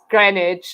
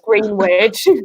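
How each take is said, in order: First: The middle W is silent. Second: The middle W is pronounced. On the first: The speaker calls it right. "pronounce things like Greenwich as Greenwich" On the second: The speaker calls it wrong. "and not as Greenwich"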